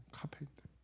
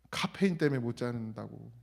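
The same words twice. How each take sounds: First: Soft unvoiced whisper of 카페인 때문에, breath only; whispered echo. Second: Said in the usual way. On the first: Shown as a demonstration. Pastor echoes his own phrase to the congregation in a whisper.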